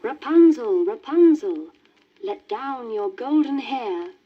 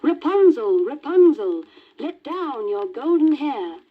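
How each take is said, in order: First: Louder, high witch calling up. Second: Put-on louder, higher young prince calling up. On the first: Acted. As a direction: call up the tower like a witch. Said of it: "she stood underneath and called". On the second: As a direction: cry out hopefully to the tower. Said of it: "the prince approached and cried".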